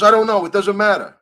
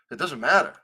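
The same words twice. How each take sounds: First: High, loud, dismissive whine; hammed-up careless official; mocking Lenny. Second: Said in the usual way. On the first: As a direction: squeal it like a brush-off. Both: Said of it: "He goes".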